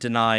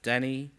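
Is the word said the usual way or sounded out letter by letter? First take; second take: usual; sounded out. First: It is said with its usual pronunciation. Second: It is sounded out by general spelling rules.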